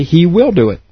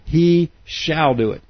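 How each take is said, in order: First: Said in the usual way. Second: "shall" said slowly and deliberately, with weight on it; a slow, deliberate "He shall do it" with stress on "shall"; emphatic shall. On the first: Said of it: "Otherwise, it would say". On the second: Shown as a demonstration. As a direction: lean on "shall" slowly and firmly to make it a promise. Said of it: "for greater emphasis".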